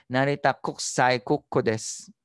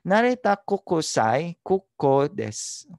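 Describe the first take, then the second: First: The u in kokusai is dropped. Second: The u in kokusai is fully pronounced. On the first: The speaker calls it right. "mas native ang dating" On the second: The speaker calls it wrong. "Tagalog ang pagkabasa ko"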